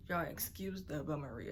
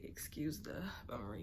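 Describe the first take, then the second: First: Said in the usual way. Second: Soft unvoiced whisper of "Excuse the bummery"; whispered apology. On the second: Real, not acted. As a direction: whisper it sheepishly. Same apology repeated.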